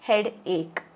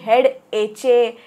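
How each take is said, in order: First: The second part is said as ache. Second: The second part is read as etch-ay. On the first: The speaker calls it right. "It is head एक" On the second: The speaker calls it wrong. "असं काही वाचायचं नाही आहे"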